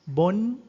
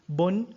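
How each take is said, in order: The two takes are said the same way.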